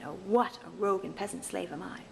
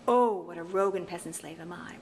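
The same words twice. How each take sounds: First: The stress falls on the second word what. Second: The stress falls on the opening word oh. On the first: The speaker calls it wrong. "rather than" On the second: The speaker calls it right. "the first syllable is better to emphasize than the second"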